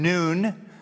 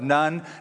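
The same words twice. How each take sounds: First: The name is given its Hebrew pronunciation. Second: The name is given an ordinary English pronunciation. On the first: The speaker calls it right. "I prefer saying Nun, that'd be the Hebrew pronunciation" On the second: The speaker calls it wrong. "to say the son of Nun, depending on your background, religious background, just doesn't play well"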